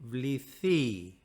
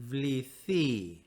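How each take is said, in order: The two takes are said the same way.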